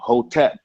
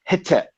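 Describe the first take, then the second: First: The first vowel is not an 'e' sound. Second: The first vowel is an 'e' sound. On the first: This is the older, common pronunciation. "before, of course, everybody would say Hotep" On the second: This is the newer, revised pronunciation. "now they've changed the pronunciation from Hotep to Hetep, H E T E P"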